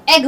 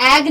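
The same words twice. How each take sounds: First: "एग" with a short eh: EGG; right "एग", eh then g; correct egg. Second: "एग" with a wide a, like "agg"; broad, drawn vowel in "एग"; mispronounced egg. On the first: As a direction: model "एग" with a short, closer e. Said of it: "ये एग होता है". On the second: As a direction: show the wrong "एग", opened to AAG. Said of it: "ये एग नहीं होता". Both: Shown as a demonstration.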